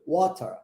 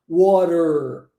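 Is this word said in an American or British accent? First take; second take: British; American. First: British accent with an open ending, no r. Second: American accent with a closed, r-colored ending. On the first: "no inglês britânico já ficaria water, aberto" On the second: "em inglês americano eu pronunciaria water, olha como é que isso é fechado"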